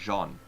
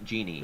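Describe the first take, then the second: First: The name is said with one syllable. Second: The name is said with two syllables. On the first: This is the character's actual name. The speaker calls it right. "But it's" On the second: This is how an English reader would read the spelling. The speaker calls it wrong. "if I were to read it with my with my English accent, it would be"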